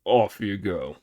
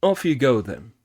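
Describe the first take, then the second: First: Lower, amused pig voice; Pig laughing. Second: Louder kindly dismissal; Sanzang sending off. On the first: Pig sending Monkey off, lower and amused. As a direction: wave him off cheerfully. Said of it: "laughed Pig". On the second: Sanzang sending Monkey off, louder. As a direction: send him off gladly. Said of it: "said Sanzang". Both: Acted.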